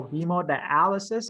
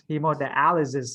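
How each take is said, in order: First: "hemodialysis" ending in a clear sis; correct S ending. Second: "hemodialysis" ending in a buzzed ziz; wrong Z ending. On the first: Teacher contrasting Z and S for students, sis ending on "hemodialysis". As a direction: finish "hemodialysis" with S sounds, no buzz. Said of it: "difference between the Z and the S". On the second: Teacher contrasting Z and S for students, ziz ending on "hemodialysis". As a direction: finish "hemodialysis" with Z sounds instead of S. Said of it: "very different". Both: Shown as a demonstration.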